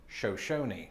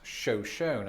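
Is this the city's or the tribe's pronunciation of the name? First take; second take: tribe; city. First: It is said the way the tribe's name is said. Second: It is said the way the city's name is said. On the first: The speaker calls it wrong. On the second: It names the city. The speaker calls it right. "But the city is pronounced Shoshone"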